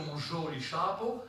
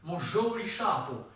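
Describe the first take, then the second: First: «mon joli chapeau» with the weight at the end, on «chapeau», rising; final stress. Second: «mon joli chapeau» with the stress pushed onto «joli», slow; wrong initial stress. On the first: Lecturer showing students the correct final stress on «chapeau». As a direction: let «chapeau» carry the stress, the French way. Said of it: "l'accent français est toujours final". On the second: Lecturer showing students the wrong stress on «joli». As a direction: put the weight early on «joli», as a non-French speaker would. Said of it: "on ne peut pas dire". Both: Shown as a demonstration.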